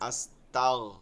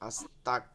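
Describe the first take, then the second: First: The consonant after 'asta' is a soft gh. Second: The consonant after 'asta' is a hard k. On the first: It asks for forgiveness. The speaker calls it right. "এটা কি গয়েন কিন্তু" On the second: It asks to be made a disbeliever. The speaker calls it wrong. "এখানে কাফ হয়ে যাচ্ছে অনেকের"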